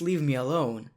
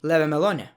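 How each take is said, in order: First: Each word is said clearly and separately. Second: The words are slurred together into one blur. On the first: The speaker calls it right. "wait, that's leave me alone" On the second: The speaker calls it wrong. "That's how I actually pronounced it back then because I didn't know how to speak in English"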